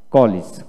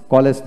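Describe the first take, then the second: First: "কলেজ" with a short i in the second syllable, ko-lis; English-style "কলেজ". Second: "কলেজ" with an e in the second syllable, ko-les; wrong Bangla-style "কলেজ". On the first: Teacher correcting learners, "কলেজ" as ko-lis. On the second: Teacher showing the mistake to avoid, "কলেজ" as ko-les. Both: Shown as a demonstration. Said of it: "কলেজ নয়".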